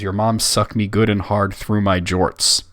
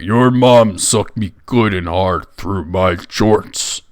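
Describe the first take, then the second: First: It is read in a plain, normal voice. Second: It is said in a gruff put-on orc voice.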